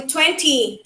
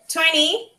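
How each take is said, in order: First: Twenty with a clear t; crisp t in the middle of "twenty,"; British twenty. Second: Twenty with the t dropped; "twenty," with the middle t dropped; American twenty. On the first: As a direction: say "twenty," with the t fully pronounced. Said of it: "and in British". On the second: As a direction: say "twenty," like twenny. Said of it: "in United States". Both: Shown as a demonstration.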